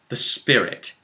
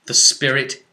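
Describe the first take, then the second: No difference in how they are said.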